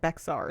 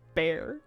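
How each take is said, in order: First: The name is said with an x sound. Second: The name is said like the word bear. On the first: The speaker calls it wrong. "they will crash out if you pronounce it like Bexar" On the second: The speaker calls it right. "It's apparently pronounced Bear"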